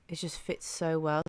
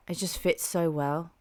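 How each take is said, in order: Both takes have the same delivery.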